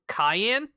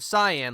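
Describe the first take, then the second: First: It sounds like the pepper, cayenne. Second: It sounds like sigh-an, the colour. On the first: "it's pronounced cayenne, like the pepper" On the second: "instead of cyan, like I had, was doing before"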